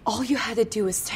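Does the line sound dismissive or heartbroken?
heartbroken. It sounds sad and hurt, heartbroken.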